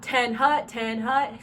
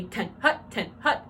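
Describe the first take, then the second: First: TEN and HUT stretched out long and loud; long, drawn out. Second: TEN and HUT cut short with gaps between; short and sharp. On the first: Coach shows drum majors the wrong call, long and drawn out. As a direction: drag out each word of "Ten hut". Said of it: "See how long and drawn out". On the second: Coach shows drum majors the right call, short and sharp. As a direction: snap out "Ten hut", each word short. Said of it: "needs to be short and sharp". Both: Shown as a demonstration.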